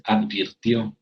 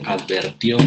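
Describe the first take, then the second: First: Advirtió with a clear i, ad-vir-tió; correct advirtió. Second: Advirtió said as adver-tió, with e in place of i; mispronounced advirtió as advertió; wrong form advertió. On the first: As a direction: say advirtió properly, vir not ver. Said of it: "se dice". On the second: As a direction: say advirtió the incorrect way, e in the second syllable. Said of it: "no se dice". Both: Shown as a demonstration.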